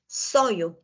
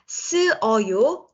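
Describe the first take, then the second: First: The vowels merge into one, in two syllables. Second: The vowels are said apart, in three syllables. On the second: "쓰 plus 어요"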